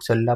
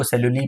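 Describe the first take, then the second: First: "सेलुला" with a final long aa; variant pronunciation. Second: "सेलुली" with a final long ee; one reading, "सेलुली", ending in an ee sound; variant pronunciation. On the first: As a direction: say "सेलुला" ending in -laa. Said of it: "कई लोग सेलुला पढ़ते हैं". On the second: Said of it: "कई लोग इसको सेलुली पढ़ते हैं". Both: Shown as a demonstration.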